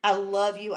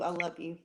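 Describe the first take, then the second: First: Said in the usual way. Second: I love you dropped much softer and lower, almost to a hush; softer, fading tender I love you. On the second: Retold or imitated. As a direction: let the last I love you fade away tenderly.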